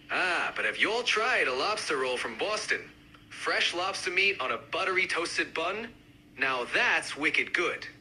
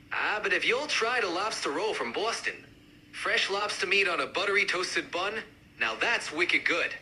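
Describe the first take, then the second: First: Lightly done Boston accent. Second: More pronounced Boston accent; amped-up Boston accent. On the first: Lobster roll fan joining the debate, mild Boston accent. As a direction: give it a hint of Boston. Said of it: "each accent, uh, represented by a speaker". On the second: Lobster roll fan joining the debate, amped-up Boston accent. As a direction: push the Boston sound. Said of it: "really amp up the accents". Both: Shown as a demonstration.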